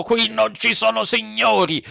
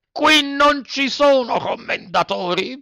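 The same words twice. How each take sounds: First: Harsh retort. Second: High, slow, hammered denial; harsh retort, topping it. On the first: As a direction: snap back hard. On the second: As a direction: bang out each word harder. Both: A narrator's reading. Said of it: "replicò duramente".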